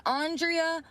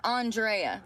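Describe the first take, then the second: First: "Andrea" said as AHN-dree-uh; pronounced an-DREE-a style. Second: "Andrea" said as ahn-DRAY-uh; pronounced with "ay". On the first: Asking which name is right, "Andrea" as AHN-dree-uh. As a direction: say "Andrea" with an "ee" before the final uh. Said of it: "Is it the first one". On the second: Offering the second option, "Andrea" as ahn-DRAY-uh. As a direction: say "Andrea" with "ay" before the final uh. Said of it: "or the second one". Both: Shown as a demonstration.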